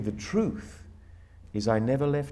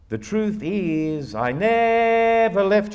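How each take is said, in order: First: It follows ordinary spoken rhythm and phrasing. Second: It follows the song's melodic rhythm and phrasing. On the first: The phrasing follows the sense of the words. The speaker calls it right. "It should be" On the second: The tune dictates the sense, not the meaning. The speaker calls it wrong. "let's speak the lyric in that rhythm"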